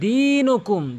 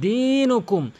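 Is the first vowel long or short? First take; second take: long; long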